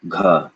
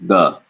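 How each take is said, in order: First: "ga" said as gha with a breath burst; aspirated gha. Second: "ga" with no air after the g; plain ga. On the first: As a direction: say "ga" with air released with the g. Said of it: "Number two". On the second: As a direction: say "ga" cleanly, no breath. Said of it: "Number one". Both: Shown as a demonstration.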